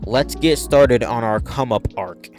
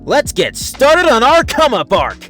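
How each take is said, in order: First: It is said in his normal, plain voice. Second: It is said ecstatically in Sonic's voice.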